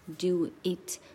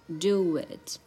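First: The words are said separately and stiffly. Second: The words are joined with a w-like glide. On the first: The speaker calls it wrong. "很生硬的像" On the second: The speaker calls it right. "它是"

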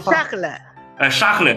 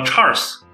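First: The name is pronounced the French way. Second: The name is pronounced the English way. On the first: "法语就沙赫勒" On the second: "那个英语叫Charles"

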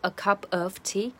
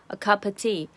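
First: The word 'of' is said fully with f. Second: The word 'of' is reduced to a schwa. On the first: The speaker calls it wrong. "而不是" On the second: The speaker calls it right. "它直接就是把of 整个弱化成schwa"

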